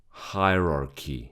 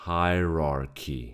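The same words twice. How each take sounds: The two takes are said the same way.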